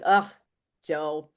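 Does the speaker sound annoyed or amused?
annoyed. It sounds annoyed and fed up.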